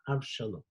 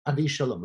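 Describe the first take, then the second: First: The name is said with three syllables. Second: The name is said with four syllables. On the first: The speaker calls it wrong. "I've been mispronouncing it" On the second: The speaker calls it right. "It's Avishalom each time"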